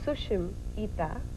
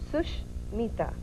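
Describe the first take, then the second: First: The name is divided after Sushim. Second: The name is divided after Sush. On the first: It means beautiful eyes. "if you pronounce it the second way, which is Sushim Ita" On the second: It means a good friend. "The first way is Sushmita"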